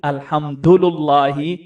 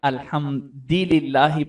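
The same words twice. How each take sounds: First: The linking vowels are heavy u sounds. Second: The linking vowels are light i sounds. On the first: "ये सकील" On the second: "पढ़ना खफीफ है"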